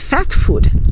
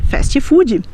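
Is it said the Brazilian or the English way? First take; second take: English; Brazilian. First: It is said with an English pronunciation. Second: It is said with a Brazilian Portuguese pronunciation. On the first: "nós não vamos chamar de" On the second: "nós vamos chamar de"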